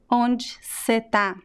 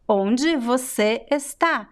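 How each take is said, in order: First: Words are shortened and the final vowels almost vanish. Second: Every word is said fully, with no reductions. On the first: It sounds like natural speech with a friend. The speaker calls it right. "the most natural way would be" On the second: It sounds like reading a sentence out of context. The speaker calls it wrong. "completely, right, without reductions"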